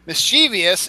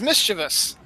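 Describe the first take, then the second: First: "mischievous" as mis-CHEE-vee-us; "mischievous" with a vee-us ending; four-syllable mischievous. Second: "mischievous" as MIS-chuh-vus; "mischievous" with a short unstressed middle; three-syllable mischievous. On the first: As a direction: stress the middle CHEE of "mischievous". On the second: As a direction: stress the first syllable of "mischievous". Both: Shown as a demonstration. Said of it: "the right way to say".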